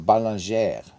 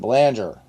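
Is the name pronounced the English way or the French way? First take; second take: French; English. First: The name has a French pronunciation. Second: The name has an English pronunciation.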